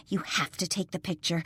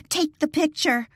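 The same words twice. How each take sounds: First: Said in the usual way. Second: High, loud frantic repeat; panicked cry to her friend; hysterical call. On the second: Acted. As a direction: shriek it as the nurses charge. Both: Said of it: "Lily called out hysterically".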